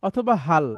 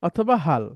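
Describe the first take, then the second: The two takes are said the same way.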